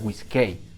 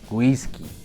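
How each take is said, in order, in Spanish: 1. La E escrita se pronuncia antes de la vocal final. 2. La palabra termina en una sola vocal 'i' simple. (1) "no se pronuncia whisky" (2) "se pronuncia whisky"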